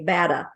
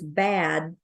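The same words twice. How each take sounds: First: Bad said as bada, an added uh after the d; schwa insertion. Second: Said in the usual way. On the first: Shown as a demonstration. Coach imitating a learner who adds a schwa to bad. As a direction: tack an uh onto bad: bada. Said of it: "they might say bada". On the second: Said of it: "if the word is bad".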